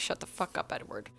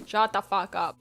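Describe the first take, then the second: First: Voiceless, soft aside of annoyance; whispered exasperation. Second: Full voice, louder and emphatic; exasperated outburst. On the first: Reader reacting to Edward, exasperated whisper. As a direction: whisper it, fed up. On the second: Reader telling Edward off, louder exasperated outburst. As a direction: punch it out in exasperation. Repeats reaction out loud. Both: Acted.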